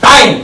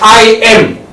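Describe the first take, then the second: First: It is said as one contracted syllable. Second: It is said as two separate syllables.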